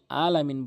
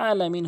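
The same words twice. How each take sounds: First: "আলামিন" opening on a simple open a, no throat sound; mistaken hamza start. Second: "আলামিন" opening with a squeezed mid-throat ayn. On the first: Teacher showing most people's error, "আলামিন" without ayn. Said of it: "যারা আলামিন বলেন তাদের নামাজ ভেঙে যায়". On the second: Teacher giving the correct form, throaty ayn in "আলামিন". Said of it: "হলকের মাঝখান থেকে উচ্চারণ করতে হবে". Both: Shown as a demonstration.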